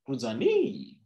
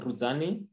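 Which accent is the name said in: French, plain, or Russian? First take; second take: French; plain. First: It is said with a put-on French accent. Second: It is said in the speaker's ordinary accent. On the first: "with a French accent" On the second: "That's how you'd normally say it"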